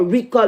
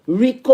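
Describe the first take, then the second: First: Rico ending in "uh"; "Rico" with a weakened final vowel; alternative pronunciation. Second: Rico ending in a clear "oh"; "Rico" with a long final o; first pronunciation option. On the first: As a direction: say Rico as REE-kuh. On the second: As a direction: say Rico as REE-koh. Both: Shown as a demonstration. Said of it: "whoever this person name is".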